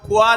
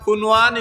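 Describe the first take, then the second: First: The n sound is hidden, only nasalized. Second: The n sound is fully pronounced. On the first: The word means a well for drinking water. The speaker calls it right. "আর যদি ওগুলো লুকাই যায়" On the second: The word has no meaning. The speaker calls it wrong. "নুনর উচ্চারণে না লুকাইয়া যদি সে উচ্চারণ করে"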